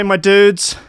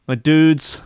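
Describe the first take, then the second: First: High sing-song my dudes, a hammed-up meme call; meme catchphrase voice. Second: Said in the usual way. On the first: Streamer greeting chat in meme catchphrase voice. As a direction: toss out "dudes" like the famous meme clip.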